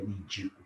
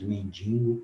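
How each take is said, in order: First: "mendigo" as men-DI-go, no added n; correct pronunciation. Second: "mendigo" with an added n before the g; wrong pronunciation with extra nasal. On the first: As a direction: say "mendigo" with a plain oral "di" before the g. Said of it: "o correto é mendigo". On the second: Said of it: "às vezes falamos mendigo". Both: Shown as a demonstration.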